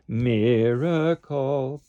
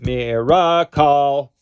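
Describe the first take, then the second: First: The first syllable is stressed, the others weak. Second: The later syllables are as strong as the first. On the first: The speaker calls it right. "Pull away from the second and third syllables. The stress is on the first one" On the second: The speaker calls it wrong. "We don't want"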